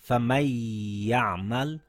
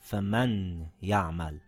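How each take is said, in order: First: The noon merges into a ya held two counts. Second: The noon is pronounced clearly before the ya. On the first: The speaker calls it right. "It now reads" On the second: The speaker calls it wrong. "and not"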